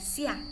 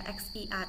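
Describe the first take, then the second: First: The word begins with a soft s sound. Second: The word begins with a ks-like sound. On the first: The speaker calls it right. "tapi dibaca sia" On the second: The speaker calls it wrong. "bukan dibaca xia"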